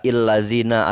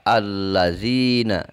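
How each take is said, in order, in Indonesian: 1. Kata ini diawali dengan vokal i. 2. Kata ini diawali dengan vokal a. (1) "Tidak illazina" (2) "Dibaca allazina"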